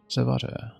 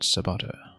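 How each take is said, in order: First: The middle consonant is a v sound. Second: The middle consonant is a b sound. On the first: The speaker calls it right. "Vo and not Bo" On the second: The speaker calls it wrong. "not Bo"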